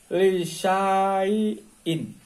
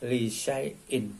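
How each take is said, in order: First: The vowel after 'li' is drawn out long. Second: The vowel after 'li' is kept short. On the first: "tulisan aslinya lisaiin" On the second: "pembacanya lisaiin. Jadi alifnya serta tanda di atasnya tidak berfungsi"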